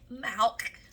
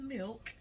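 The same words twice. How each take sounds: First: The vowel is changed away from short 'i'. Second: The vowel is a plain short 'i' sound.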